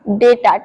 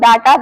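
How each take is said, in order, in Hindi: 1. पहला स्वर 'ay' जैसा बोला जाता है। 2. पहला स्वर 'ah' जैसा बोला जाता है। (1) "ऐसे डेटा, ई का साउंड आना है" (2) "बहुत सारे लोग इस वर्ड को डाटा बोलते हैं"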